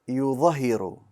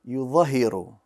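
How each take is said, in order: The two takes are said the same way.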